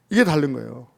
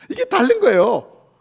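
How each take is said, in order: First: Said in the usual way. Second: 이게 다른 거예요 said slow and loud, every word pressed; emphatic. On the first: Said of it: "repeated phrase, second plain". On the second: Shown as a demonstration. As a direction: lean hard on 이게 다른 거예요. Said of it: "repeated phrase, first emphatic". (이게 다른 거예요를 천천히 크게 힘주어)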